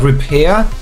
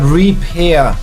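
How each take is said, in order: First: The first syllable is weak, like 'ruh'. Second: The first syllable is full, like 'ree'. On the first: To fix something broken. "as in like repair" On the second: To pair a device again. "Like pairing up"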